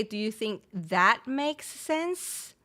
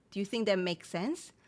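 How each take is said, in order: First: Slow question leaning on "that"; slow, with "that" set apart and emphasised; stress on that. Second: Said in the usual way. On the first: Shown as a demonstration. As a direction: draw it out, hitting "that" and rising at the end. Slow take showing the added word that.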